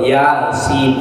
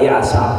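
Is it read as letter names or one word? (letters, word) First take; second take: letters; word. First: It is read as the letter names ya and sin. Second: It is read as one ordinary word, yasa. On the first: The speaker calls it right. "hurufnya dibaca ya" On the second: The speaker calls it wrong. "bukan yasa"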